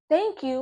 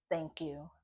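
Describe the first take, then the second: First: High, loud outraged repeat; indignant echo. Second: Said in the usual way. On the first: Real, not acted. Woman repeating her ex's thanks, indignant. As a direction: throw it back in disbelief.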